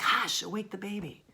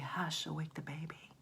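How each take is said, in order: First: It is said forcefully, with urgency. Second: It is said mildly, without urgency.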